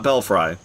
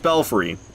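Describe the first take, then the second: First: The last syllable sounds like 'fry'. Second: The last syllable sounds like 'free'. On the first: The speaker calls it wrong. "not Belfry" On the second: The speaker calls it right. "I think it's Belfry"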